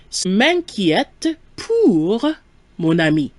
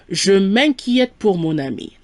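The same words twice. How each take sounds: First: Word by word, drawn out with pauses; slow model sentence. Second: Said in the usual way. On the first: Shown as a demonstration. Teacher giving learners the answer, slow and segmented. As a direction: stretch each chunk for learners.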